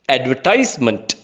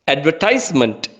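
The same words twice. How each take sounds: First: It is said in an American English accent. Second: It is said in an American English accent.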